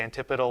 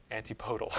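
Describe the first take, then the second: First: "antipodal" stressed on the TIP, as an-TIP-uh-dul; "antipodal" with short I stressed, O reduced; first pronunciation option. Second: "antipodal" said as an-tee-POH-dul, softly; "antipodal" as anti plus POH-dul, offered quietly; second pronunciation option. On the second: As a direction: say "antipodal" with a long, stressed "POH". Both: Shown as a demonstration. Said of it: "who wants me to say antipodal or".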